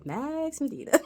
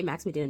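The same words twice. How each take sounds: First: "Max Medina" lifted and drawn out for flair; dramatic name. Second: Said in the usual way. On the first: Shown as a demonstration. Host showing how the name must be said, with flair. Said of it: "You gotta say Max Medina". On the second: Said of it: "say Max Medina normally".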